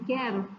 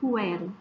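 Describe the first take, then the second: First: No separate u sound follows the k sound. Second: A separate u sound follows the k sound. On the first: The speaker calls it right. "e sim quero" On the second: The speaker calls it wrong. "como eu não pronuncio quero"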